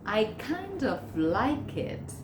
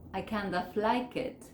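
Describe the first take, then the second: First: Each word is said fully and carefully. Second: The words run together in relaxed, reduced form.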